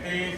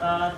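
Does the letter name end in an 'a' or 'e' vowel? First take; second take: e; a. First: The letter name ends in an 'e' vowel. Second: The letter name ends in an 'a' vowel. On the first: This is the non-Arabic way of naming the letter. The speaker calls it wrong. "नहीं" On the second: This is the Arabic way of naming the letter. The speaker calls it right. "ये अरबी लहज़ा होगा"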